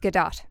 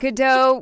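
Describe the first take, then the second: First: The name is said with an Israeli pronunciation. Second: The name is said with a French pronunciation. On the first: The speaker calls it right. "she is Israeli, not French, so it's Gadot" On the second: The speaker calls it wrong. "Gadot would be the French pronunciation"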